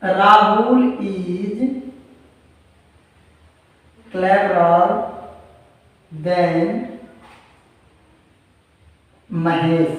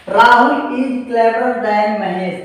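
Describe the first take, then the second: First: Very slow, word by word, long pauses between words; slow dictation. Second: Said in the usual way. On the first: Shown as a demonstration. Teacher dictating the example sentence to students, slow word by word. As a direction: spell out each word as if students are writing it down. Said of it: "reads it again at normal pace". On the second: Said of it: "slow dictation before".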